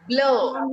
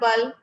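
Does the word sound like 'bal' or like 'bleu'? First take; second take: bleu; bal. First: It is said with a rounded 'eu' vowel after the L. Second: It is said with an 'a' vowel before the L. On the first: The speaker calls it right. "It's E U is blur" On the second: The speaker calls it wrong. "No, it's not bal"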